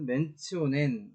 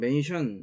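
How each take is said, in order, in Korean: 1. 가운데 자음은 t 소리입니다. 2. 가운데 자음은 sh 소리입니다. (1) "이것은 mentionen 이라고 발음을 해주면 됩니다" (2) "흔히 영어에서는 mention 이렇게 이야기를 할 수 있을 것 같은데"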